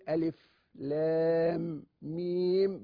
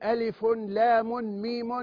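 First: Each name ends on a silent final consonant. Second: Each name ends with a vowel sound. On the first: The speaker calls it right. "بتسكين الحرف الأخير" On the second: The speaker calls it wrong. "نحن لا نقول ألف، لام، ميم"

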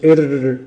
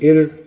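First: The r sound is trilled with many exaggerated taps. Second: The r sound is trilled lightly with little repetition. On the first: The speaker calls it wrong. "دي غلط" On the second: The speaker calls it right. "خلاص تمام"

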